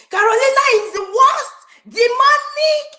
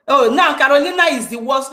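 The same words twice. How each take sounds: First: High, hammed-up wailing complaint, slowing on Demonic; mock pained whine. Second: Said in the usual way. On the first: Mocking a rival's pained complaint to the meeting, high mock wail. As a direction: mimic a crybaby moaning about his pain. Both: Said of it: "Look at the pain in his voice".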